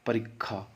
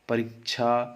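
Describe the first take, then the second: First: The middle consonant is a doubled kkh sound. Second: The middle consonant is a doubled cch sound. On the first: "क ख में भी बदल सकते हैं" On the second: "च छ में भी"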